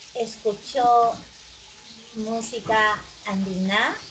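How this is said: The pitch rises at the end. It is a question.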